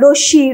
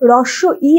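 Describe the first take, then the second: First: The name is clipped into one short run-together word. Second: The name is said in full as two parts. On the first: The speaker calls it wrong. "এরকম উচ্চারণ করে থাকি" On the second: The speaker calls it right. "কিন্তু এগুলো রস্ব ই"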